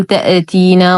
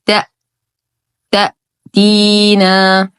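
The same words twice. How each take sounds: First: "تأتينا" with the أ echoing into a small vowel; bouncing hamza, mistake demo. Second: "تأ" stopped dead, then slow "تأتينا"; correct cut-off hamza. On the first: Teacher shows learners the mistake, vibrating hamza in "تأتينا". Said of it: "فلا نقول تأتينا وهذا خطأ". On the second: Teacher gives learners the correct form, hard-stopped hamza in "تأتينا". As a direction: cut all sound at the أ in "تأتينا". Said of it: "والصواب". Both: Shown as a demonstration.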